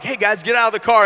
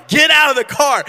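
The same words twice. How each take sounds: First: Said in the usual way. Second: High, loud exasperated command; out of patience with the kids, a loud high order. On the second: Retold or imitated. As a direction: snap the order out, patience gone.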